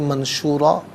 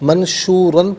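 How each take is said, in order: First: The word ends with a long vowel. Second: The word ends with an n sound. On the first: The reader stops here. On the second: The reading continues without stopping.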